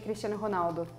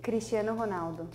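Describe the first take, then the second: First: The name is said at normal speed. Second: The name is said slowly.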